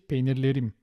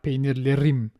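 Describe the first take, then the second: First: The r sound is soft and subtle. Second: The r sound is strong and pushed. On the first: The speaker calls it right. "They're all subtle" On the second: The speaker calls it wrong. "But it's not like peynirlerim"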